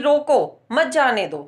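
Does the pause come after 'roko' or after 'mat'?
after roko. The pause comes right after the first word. Stop the person; do not let them leave. "उसको रोको, उसको जाने मत दो।"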